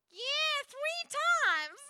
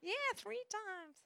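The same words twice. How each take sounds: First: High, slow, laughing South Carolina drawl; mock South Carolina accent, much higher; Southern US accent. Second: A lighter, slow South Carolina drawl, higher; Southern US accent. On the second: Retold or imitated. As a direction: redo the South Carolina lady's line gently. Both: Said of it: "that was bad accent".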